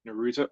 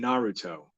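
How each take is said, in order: First: "Naruto" said nuh-ROO-toe; Naruto, stress on second syllable. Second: "Naruto" said NAH-roo-toe; Naruto, stress on first syllable. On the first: Host unsure of the name, trying "Naruto" as nuh-ROO-toe. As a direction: say "Naruto" with a weak first vowel, stressed middle. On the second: Host checking the name aloud, "Naruto" as NAH-roo-toe. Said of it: "or is it Naruto?". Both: Shown as a demonstration.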